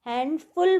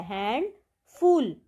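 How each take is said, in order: First: Said in the usual way. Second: हैंडफुल said slowly and clearly, syllable by syllable; careful pronunciation. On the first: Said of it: "pronunciation मतलब हम इसको कैसे बोलते हैं". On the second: Shown as a demonstration. Teacher showing students how to say the word, slow and clear. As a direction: spell out हैंडफुल slowly so students hear each sound. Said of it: "उसकी pronunciation यहाँ पर लिखी गई है".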